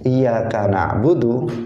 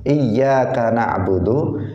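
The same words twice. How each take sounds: First: The y sound in iyyaka is single. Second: The y sound in iyyaka is doubled. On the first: To sunlight we worship. The speaker calls it wrong. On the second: Only you do we worship. The speaker calls it right.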